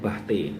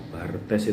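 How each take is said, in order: First: The r and final s are not pronounced. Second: The r and final s are clearly pronounced. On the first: The speaker calls it right. "Katanya lava pelafalannya itu Bahte" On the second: The speaker calls it wrong. "saya bilang Bartes itu salah"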